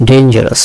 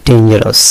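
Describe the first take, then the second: The two takes are said the same way.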